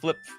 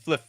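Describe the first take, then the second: First: The word ends with a p sound. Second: The word ends with an f sound. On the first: The speaker calls it wrong. "It's not flip" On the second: The speaker calls it right. "it's fliff"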